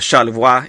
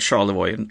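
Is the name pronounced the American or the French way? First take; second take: French; American. First: The name is given a French pronunciation. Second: The name is given an American English pronunciation. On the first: "if you speak French" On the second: "in American English"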